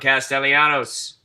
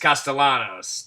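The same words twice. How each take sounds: First: The ending has an extra 'y' sound: 'yanos'. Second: The ending is a plain 'anos' with no 'y'. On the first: The speaker calls it wrong. "I might have thrown an I in there" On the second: The speaker calls it right. "It's Castellanos. There's no Ianos"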